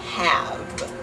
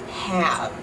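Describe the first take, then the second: First: The word ends with a voiced v sound. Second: The same.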